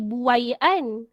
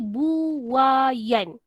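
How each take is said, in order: First: The 'ai' glides together as one vowel sound. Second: The vowels are split into separate syllables. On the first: The speaker calls it wrong. "dia tak jadi buaian" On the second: The speaker calls it right. "Dia jadi buayan. Dia pisah tu"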